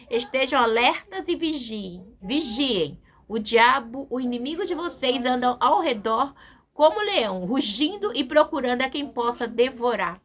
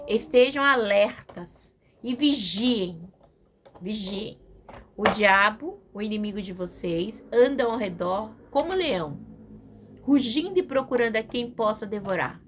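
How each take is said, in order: First: Forceful preaching. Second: Slow, steady reading of the verse; scripture reading. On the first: Preacher repeating the verse to the church, booming. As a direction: proclaim it like a battle cry. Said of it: "é muito forte, igreja". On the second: Preacher reading the verse to the congregation, measured. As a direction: read the warning out to the church. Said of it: "é muito forte". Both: Shown as a demonstration.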